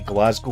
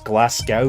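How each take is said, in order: First: It is said the local Scottish way. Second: It is said the American way. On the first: The speaker calls it right. "my city Glasgow" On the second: The speaker calls it wrong. "Americans pronounce my city ... as Glasgow, which really annoys me"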